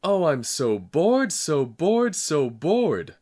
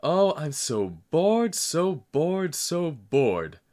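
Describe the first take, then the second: First: High, slow, even louder wailing howl. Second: Put-on high, slow, loud child's wail. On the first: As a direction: howl it louder than ever. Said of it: "I howled more loudly than ever". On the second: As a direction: wail it out like a bored child crying. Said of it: "I burst into loud wails". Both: A narrator's reading.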